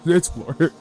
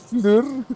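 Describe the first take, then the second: First: The name is said like English 'floor'. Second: The name is said like French 'fleur'. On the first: The speaker calls it right. "No, it's floor" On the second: The speaker calls it wrong. "Trying to make it French"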